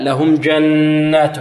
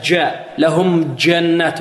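First: جنات with a firm stopped jeem and a full nasal doubled nun; slow, model recitation of لهم جنات; correct jeem. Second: جاء with the jeem pushed forward toward a d; mispronounced jeem. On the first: Shown as a demonstration. Teacher models the correct reading for students. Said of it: "لأنها مشددة". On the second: Retold or imitated. Teacher mimics a student's wrong jeem in جنات. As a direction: imitate a student saying جنات with a dal-like jeem. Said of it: "يقول هكذا".

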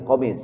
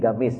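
First: "komis" said with a K-like qaf at the start; qaf pronunciation. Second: "gamis" said with a hard G at the start. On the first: Preacher giving the qaf form "komis" after "gamis". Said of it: "melafazkan qaf dengan G". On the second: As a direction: say "gamis" the way some Arabs turn qaf into G. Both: Shown as a demonstration.

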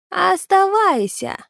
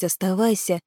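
First: High, slow drawn-out call, falling away; creature's parting word. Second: Said in the usual way. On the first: Acted. Vanishing creature leaves Naal one high, drawn-out command. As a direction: draw the word out like an eerie warning. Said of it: "промолвил Граги". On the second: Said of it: "в его ушах продолжало звенеть".

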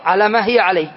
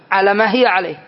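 Both takes have the same delivery.

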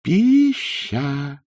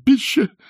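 First: Raised, lingering syllables; long, pondering drawl; drawn-out word. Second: Short, high, loud squeak; brief nervous falsetto; squeaky innkeeper. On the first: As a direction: stretch each vowel out slowly. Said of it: "протянул приезжий". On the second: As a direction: pipe the word out quickly in a thin voice. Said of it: "пропищал он неестественно тонким голоском". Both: A narrator's reading.

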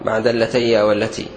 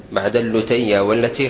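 First: اللتي with open vowel after the lam, al-leteya; correct form. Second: اللتي with u after the lam, al-luteya; wrong form. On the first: Teacher giving the correct form of اللتي with fatha. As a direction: say اللتي as alleteya, no u sound. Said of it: "الصواب". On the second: Teacher quoting the common error, اللتي said with damma. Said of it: "خطأ بالضم". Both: Shown as a demonstration.

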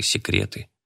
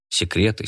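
First: Whispered секреты, unvoiced and soft. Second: Said in the usual way. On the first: A narrator's reading. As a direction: breathe секреты almost silently. Repeated word, second whispered.

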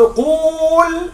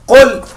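First: قول said qool with a long oo; wrong form قول with the long waw kept, offered as a test; wrong imperative. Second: Said in the usual way. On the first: Shown as a demonstration. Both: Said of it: "لا أقول هذا".

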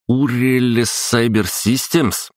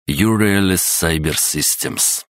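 First: Higher, puzzled echo of a strange name; puzzled repeat. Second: Sounding out slowly; slow careful reading. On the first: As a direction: repeat it, baffled. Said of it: "Что это значит?". (недоумённый переспрос) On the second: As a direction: read it syllable by syllable. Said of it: "текст был сложнее". (медленное чтение по слогам) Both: Acted.

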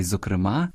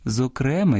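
First: "зокрема" stressed on the last syllable, зокремА. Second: "зокрема" stressed on the middle syllable, зокрЕма; stress on second syllable. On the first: Host showing parallel stresses, "зокрема" with final-syllable stress. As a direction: lean on the А of "зокрема". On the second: Host showing parallel stresses, "зокрема" with middle-syllable stress. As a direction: lean on the Е of "зокрема". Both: Shown as a demonstration. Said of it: "подвійне або паралельне наголошування".

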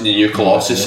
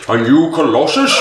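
First: Said in the usual way. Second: Higher, questioning put-on wizard voice; Gandalf. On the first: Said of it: "sounds like a very much like". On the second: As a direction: ham it up like a wizard, rising at the end. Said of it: "the Gandalf voice".

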